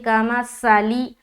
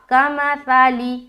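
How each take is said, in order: First: The consonant is a hissing s sound. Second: The consonant is a soft th sound. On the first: The speaker calls it wrong. "साली तो सीन बन जाएगा" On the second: The speaker calls it right. "बल्कि ता ता ता ता"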